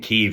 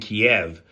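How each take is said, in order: First: The city name has the Ukrainian pronunciation. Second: The city name has the Russian pronunciation. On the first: The speaker calls it right. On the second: The speaker calls it wrong.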